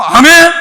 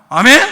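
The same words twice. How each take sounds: First: Very loud, high call for response; big loud amen. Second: Said in the usual way. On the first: Shown as a demonstration. Preacher showing the congregation a bigger amen, loudly. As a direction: belt out the amen to rouse them. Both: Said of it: "크게 해봐요".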